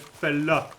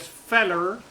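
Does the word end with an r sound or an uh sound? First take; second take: uh sound; r sound. First: The word ends in an open uh sound. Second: The word ends in an r-colored er sound. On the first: This is how later mobsters said it. "the mobsters, they pronounce it as fella" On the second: This is how it was said in the Wild West. "in the Wild West they pronounce it as feller"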